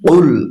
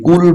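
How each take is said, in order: First: It starts with a deep back q sound. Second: It starts with a light front k sound. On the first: The speaker calls it right. "বলতে হবে উল, যেহেতু এটা কফ" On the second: The speaker calls it wrong. "কুল বলা যাবে না বন্ধুরা"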